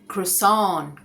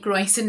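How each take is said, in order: First: It ends with a nasal 'sahn' sound. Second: It ends with a pronounced 'sent' sound. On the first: The speaker calls it right. "क्रो और सान" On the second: The speaker calls it wrong. "ये क्रोइसेंट नहीं है"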